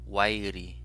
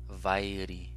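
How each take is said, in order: First: The word begins with a w sound. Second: The word begins with a v sound. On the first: "Wa, wa" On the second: "or, o, va, va"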